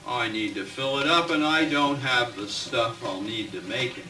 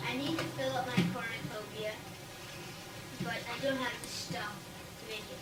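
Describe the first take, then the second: First: Louder, clear reading of the witch. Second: Quiet witch voice. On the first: Shown as a demonstration. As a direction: say it out so all can hear. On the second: Acted. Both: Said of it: "Mary the Witch said".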